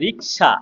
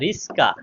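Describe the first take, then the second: First: The s sound comes after the k sound. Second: The s sound comes before the k sound. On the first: "আমি যদি বলি রিক্সা" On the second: "দন্তুসা শেষে ছিল সেটা আগে এসেছে, ক মাঝখানে ছিল সেটা পরে চলে গেছে"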